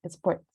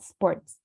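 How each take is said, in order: First: An extra e vowel comes before the s. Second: The word starts directly with the s sound. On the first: The speaker calls it wrong. "not with sports" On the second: The speaker calls it right. "connect the the S without adding an E, and it will sound better"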